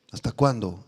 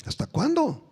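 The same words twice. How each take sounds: First: Hasta cuándo said low and falling; low repeat. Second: Hasta cuándo pitched high, then falling; high plea. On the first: Preacher repeating the Lord's question, lower and grave. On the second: Preacher reading the Lord's question, pitched high. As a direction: lift ¿Hasta cuándo? high and let it drop. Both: Acted. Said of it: "saber mis palabras".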